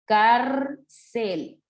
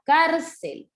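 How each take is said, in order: First: Cárcel broken as cár, pause, cel; cárcel with a long stressed cár, then cel; split into syllables. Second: Cárcel as one word, weight on cár; cárcel stressed at the start, falling away; stress on first syllable. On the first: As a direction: separate cárcel into two slow beats. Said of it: "última, penúltima". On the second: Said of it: "Por ejemplo". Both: Shown as a demonstration.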